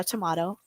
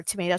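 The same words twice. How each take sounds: First: "tomato" with an AH in the middle, to-MAH-to; alternate TOMATO pronunciation. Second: Said in the usual way. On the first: Shown as a demonstration. Contrasts two ways of saying tomato.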